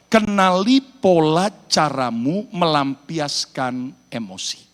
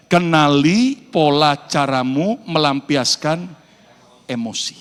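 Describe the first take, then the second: First: Kenali pola caramu melampiaskan emosi said slowly, every word weighed; slow emphatic statement. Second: Kenali pola caramu melampiaskan emosi chanted slowly with the congregation; slow call and repeat. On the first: Preacher stating the point for people to repeat, slow and weighty. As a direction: spell out the key point slowly for the congregation. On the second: Preacher leading the church in saying it together, slow. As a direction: lead the crowd through the phrase slowly. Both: Shown as a demonstration. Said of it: "Ayo ucapkan bersama-sama".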